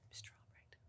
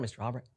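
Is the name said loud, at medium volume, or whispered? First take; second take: whispered; loud. First: The name is whispered very quietly. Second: The name is said loudly and strongly. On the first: "say it quietly, like whisper it" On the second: "And then a little louder"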